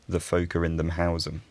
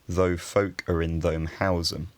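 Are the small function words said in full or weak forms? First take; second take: weak; full. First: The small words are said in reduced forms. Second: The small words are said in full forms.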